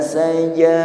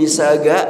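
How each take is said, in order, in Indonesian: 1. Konsonan kedua adalah bunyi j. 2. Konsonan kedua adalah bunyi g keras.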